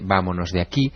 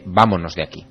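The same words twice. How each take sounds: First: It is said with a singsong, lilting tune. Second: It is said with a plain, flat tune.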